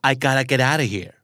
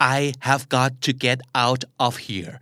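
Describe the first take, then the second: First: "Have got to" is reduced to "gotta". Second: "Have got to" is pronounced in full.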